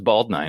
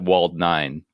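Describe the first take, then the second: First: The first word begins with a B sound. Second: The first word begins with a W sound. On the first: The speaker calls it right. "in katakana it has to become a B sound" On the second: The speaker calls it wrong. "I always called it Wald nine"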